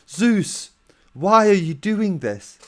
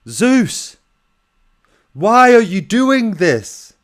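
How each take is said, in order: First: It is said more quietly. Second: It is shouted loudly.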